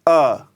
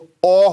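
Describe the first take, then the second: First: The vowel is said with relaxed, open lips. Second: The vowel is said with rounded lips. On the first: The speaker calls it right. "इसमें गोल करने की बिल्कुल आवश्यकता नहीं है, एकदम से आराम से इसको खोलिए" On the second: The speaker calls it wrong. "मुंह को गोल अगर करेंगे आप तो अ हो जाएगा"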